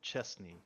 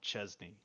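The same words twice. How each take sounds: First: The middle consonant is a hissing s sound. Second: The middle consonant is a buzzing z sound. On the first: This is the official pronunciation. "the actual official pronunciation" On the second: This is how the locals say it. "they pronounce it with a Z"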